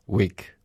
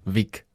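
First: The word begins with a W sound. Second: The word begins with a V sound. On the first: It is said the English way. "sag's nochmal so auf Englisch" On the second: It is said the German way. "Also Wick, wie die Zuckerl eigentlich"

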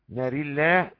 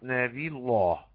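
First: The r and the l are both light. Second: The r is light and the l heavy. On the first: "ترقيق ترقيق" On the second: "ترقيق تفخيم"

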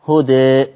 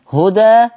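First: The final vowel leans slightly toward 'e'. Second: The final vowel is a fully open 'a'. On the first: "والتقليل" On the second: "فيه الفتح"

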